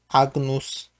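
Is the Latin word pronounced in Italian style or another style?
another style. The word is pronounced in a non-Italian style. "Można też wymówić oczywiście po innemu"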